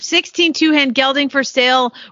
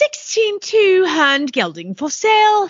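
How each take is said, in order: First: It is said in the speaker's usual accent. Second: It is said in a put-on English accent. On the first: "I don't think you said that with an English accent" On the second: "I think that I can, actually"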